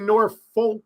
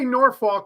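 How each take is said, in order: First: The second syllable sounds like the word folk. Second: The second syllable sounds like the word fork. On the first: "you don't say Norfolk, F O L K" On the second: "you don't say Norfolk like you would like a fork"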